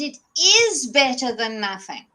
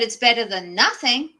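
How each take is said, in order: First: The word 'is' carries strong emphasis. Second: The word 'is' is reduced and unstressed. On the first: The result truly counts as real progress. The speaker calls it right. "so you can say, I got this, and it is better than nothing" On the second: The result is a grudging consolation. The speaker calls it wrong. "Not, but it's better than nothing"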